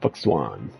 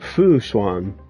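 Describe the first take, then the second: First: The first syllable ends with a k sound. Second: The first syllable ends without a k sound. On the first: "fuck Swan with a C K" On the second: "I feel like it's a Fu Fu Swan"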